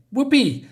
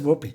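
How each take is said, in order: First: High, loud mock cheer on Whoopee; sarcastic whoopee. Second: Said in the usual way. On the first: The blinded patient mocks the doctor's cheer, sarcastic whoop. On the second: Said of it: "She says".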